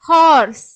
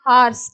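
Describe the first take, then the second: First: The vowel is not an open 'aa' sound. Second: The vowel is an open 'aa' sound. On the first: The speaker calls it right. "ஆனா இங்கிலீஷ்ல வந்து ஓக்கு ஆங்கிற sound வந்து கிடையாது" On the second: The speaker calls it wrong. "Indian Tamil இங்கிலீஷ்ல எப்படி சொல்லுவோம்னா"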